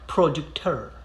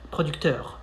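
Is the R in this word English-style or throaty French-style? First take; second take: English-style; French-style. First: The R is pronounced like an English R. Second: The R is a brief throaty French R. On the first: The speaker calls it wrong. "you wouldn't say je suis producteur. No, like many people get lazy when it's time to pronounce the letter R, so they they go with the the same English R" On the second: The speaker calls it right. "It's like you're spitting something out, out of your throat"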